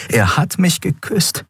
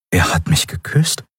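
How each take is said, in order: First: High, delighted amazement; much higher, thrilled inner voice; elated realization. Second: Mild disbelief, rising at the end; stunned question. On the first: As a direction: marvel at it with rising joy. Elated inner thought, dreams come true. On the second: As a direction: wonder at it, half asking. Stunned inner thought after kiss. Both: A narrator's reading.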